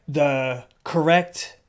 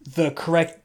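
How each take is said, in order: First: "correct" stretched out slowly with a rise; slowed emphasis. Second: Said in the usual way. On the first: Shown as a demonstration. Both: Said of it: "we don't put emphasis on the correct syllable".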